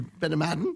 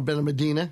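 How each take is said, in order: First: The name is said with a Spanish pronunciation. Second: The name is said with an anglicized pronunciation. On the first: "I believe the Spanish way is" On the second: "is how I pronounce it"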